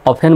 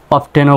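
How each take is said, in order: First: "অফেন" with no t, off-en; silent T. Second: "অফটেনও" with the t sounded, off-ten; T pronounced. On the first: Teacher repeats both valid options, "অফেন" with silent t. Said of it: "অফেন বলে টি উচ্চারণটা silent হচ্ছে". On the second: Teacher repeats both valid options, "অফটেনও" with sounded t. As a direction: say "অফটেনও" with a clear t in the middle. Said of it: "তো দুইটি উচ্চারণই সঠিক". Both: Shown as a demonstration.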